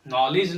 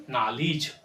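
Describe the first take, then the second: First: "नॉलेज" as "naw-lej"; rounded first vowel, e in "नॉलेज"; wrong pronunciation. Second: "नॉलेज" as "naa-lij"; lower-pitched "नॉलेज" ending in "-lij"; correct pronunciation. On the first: Teacher showing what to avoid, "नॉलेज" as "naw-lej". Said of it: "नॉलेज नहीं". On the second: Teacher correcting it, "नॉलेज" as "naa-lij". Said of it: "हमारा sound नॉलेज होगा". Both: Shown as a demonstration.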